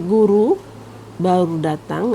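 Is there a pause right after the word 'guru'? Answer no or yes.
yes. There is a pause right after 'guru'. A teacher has only just arrived. "ada jeda, itu berarti yang datang adalah guru"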